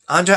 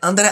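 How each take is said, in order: First: It is said in his normal accent. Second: It is said in a French accent.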